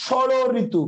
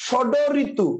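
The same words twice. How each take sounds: First: ষড় with a flapped ড়; actual shoro ritu. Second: ষড with a stopped ড; rule-based shado ritu. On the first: Teacher giving the real form: ষড় ঋতু with a flap. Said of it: "আমরা বলি". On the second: Teacher showing the rule form: ষড ঋতু with hard D. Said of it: "হওয়ার কথা ছিল". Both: Shown as a demonstration.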